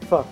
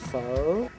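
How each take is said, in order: First: The pitch stays level without rising. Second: The pitch dips down and then rises. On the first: This is how people from the north say it. "Very flat" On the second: This is how people from the south say it. "you bring it down and then you kind of bring it up"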